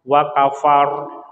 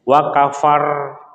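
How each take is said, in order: First: The final r is released without rolling. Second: The final r is held and rolled. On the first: The speaker calls it right. "tapi kalau kita lepas" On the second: The speaker calls it wrong. "Kalau ditahan"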